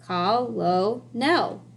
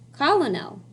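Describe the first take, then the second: First: It is said in three syllables, as spelled. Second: It is said in two syllables, unlike its spelling. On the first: This is how the word is spelled. "That's how it's spelled" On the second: This is how the word is actually pronounced. "That's pronounced colonel"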